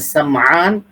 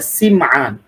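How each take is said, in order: First: The first vowel is an 'a' sound. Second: The first vowel is an 'i' sound. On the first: "सीन पर जबर" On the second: "सीन पर जेर"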